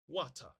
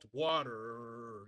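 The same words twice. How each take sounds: First: It has a British accent with a plain T. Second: It has an American accent with a strong R. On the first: "They use the plain T sound" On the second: "a very throatic R sound"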